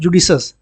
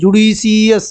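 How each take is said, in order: First: The ending is said as one syllable, shus. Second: The ending is said as two syllables, shee-us. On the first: The speaker calls it right. "क्या बोलना है, जुडिशस" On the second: The speaker calls it wrong. "ऐसे नहीं बोलना है"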